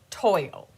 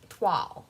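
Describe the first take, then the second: First: The word is said like English 'toil'. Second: The word is said like 'twahl'. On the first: The speaker calls it wrong. "I knew that it wasn't toil" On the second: The speaker calls it right. "yay, I got it"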